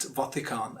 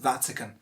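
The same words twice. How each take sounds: First: Vatican as VAH-ti-kaan; mispronunciation. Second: Vatican as VAT-ih-kun; correct pronunciation. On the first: Teacher showing what many people say, mispronounced Vatican. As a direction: say "Vatican" with open AA vowels. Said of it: "a lot of people pronouncing it". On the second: Teacher giving the right form, correct Vatican. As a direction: say "Vatican" with a short a and weak ending. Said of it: "It's pronounced". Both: Shown as a demonstration.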